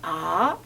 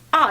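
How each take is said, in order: First: The pitch rises from middle to high. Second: The pitch falls sharply from high to low. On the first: "이성은 어떻게 하지?" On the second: "사성은 어떻게 하지? 아 이렇게 해"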